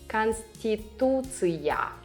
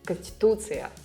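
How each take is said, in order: First: All syllables are pronounced clearly. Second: It is fast, with unstressed vowels reduced.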